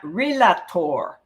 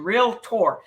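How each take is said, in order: First: It is said with three syllables, re-la-tor. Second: It is said with two syllables, real-tor. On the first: The speaker calls it wrong. "not relator" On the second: The speaker calls it right. "it's two uh, syllables: real and tor"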